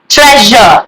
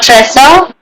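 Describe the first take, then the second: First: The middle consonant is a 'zh' sound. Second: The middle consonant is not a 'zh' sound. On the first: The speaker calls it right. "the S U R E would be je" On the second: The speaker calls it wrong. "not treasure"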